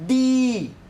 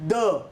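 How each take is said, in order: First: The vowel in the word is long. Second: The vowel in the word is short.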